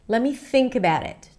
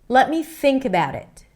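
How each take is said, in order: The two takes are said the same way.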